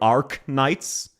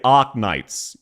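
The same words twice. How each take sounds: First: It is said in an American accent. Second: It is said in an Australian accent.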